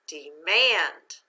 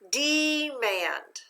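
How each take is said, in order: First: The stress is on the second syllable. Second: The stress is on the first syllable.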